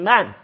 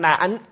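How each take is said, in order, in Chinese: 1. 这个字读去声。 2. 这个字读平声。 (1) "念出去声" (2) "念出平声"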